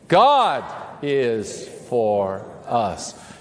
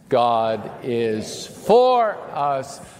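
First: The stress falls on the word 'God'. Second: The stress falls on the word 'for'. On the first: "emphasize a different word each time, starting with the first word" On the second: "emphasize a different word each time"

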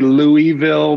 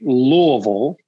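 First: The first part is a full 'Louie' sound. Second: The first part is a short, reduced 'luh' sound. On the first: The name is said after the king it honors. "Some people say Louisville because it's after King Louis" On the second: This is how locals say the name. "So it's actually Louisville"

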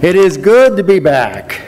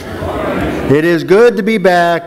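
First: It is said with more conviction and warmth. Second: It is said plainly, without much conviction. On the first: The speaker calls it right. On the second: The speaker calls it wrong.

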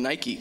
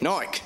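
First: It is said with an American pronunciation. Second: It is said with a British pronunciation.

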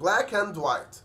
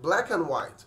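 First: The word 'and' is pronounced fully and clearly. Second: The word 'and' is reduced to a short 'n'. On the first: "في العادي خالص عشان تنطق الجملة دي هتنطقها" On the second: "الامريكان هينطقوها"

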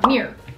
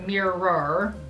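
First: The word sounds like a single syllable, 'meer'. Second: The word sounds like two syllables, 'mir-ror'. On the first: This is how people in Michigan say it. "It's like M-E-E-R" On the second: This is how people elsewhere say it. "Instead of mirror"

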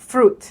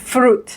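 No difference in how they are said.

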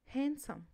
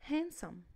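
The two takes are said the same way.

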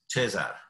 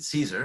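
First: The name has a Romanian pronunciation. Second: The name has an English pronunciation. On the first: This is how the family back home says it. "My mom would pronounce it Cesar" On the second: This is how people locally say it. "pretty much everyone around pronounces it Caesar"

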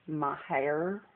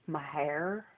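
First: The name ends with an 'air' sound. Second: The name ends with an 'air' sound.

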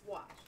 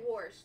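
First: The word is said without an R sound. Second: The word is said with an R sound. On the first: This is how the speakers themselves say it. The speaker calls it right. "It's wash. There's no R in that" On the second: This is how people further north say it. The speaker calls it wrong. "We don't say wash, though... because that's northern"

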